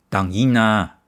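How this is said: It sounds threatening, like warning someone off.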